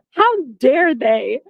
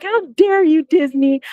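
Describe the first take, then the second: First: Slow, drawn-out mock offence; slow outrage. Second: High, dramatic how dare you; indignant cry. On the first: Registration fails, slow mock-offended how dare they. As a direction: stretch each word in mock offence. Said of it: "outraged retelling". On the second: Retold or imitated. Scolding Disney directly, high mock indignation. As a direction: fling it at Disney, pitch up. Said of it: "I was like".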